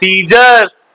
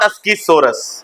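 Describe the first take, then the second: First: It is said like sizers, without a k sound. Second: It is said like askisoras, with a k sound. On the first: The speaker calls it right. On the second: The speaker calls it wrong. "Not अस्कीसोरस"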